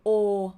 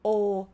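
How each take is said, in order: The two takes are said the same way.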